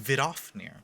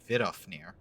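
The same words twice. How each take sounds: First: The stress is on the second syllable. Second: The stress is on the first syllable. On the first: "It's Vidofnir. ... Putting the stress in the second syllable" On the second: "I've been doing it Vidofnir. ... instead of the first"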